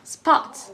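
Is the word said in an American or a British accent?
American. A shorter vowel with an R sound, lips spread. "in the American accent, the word sport ... has an R sound to it"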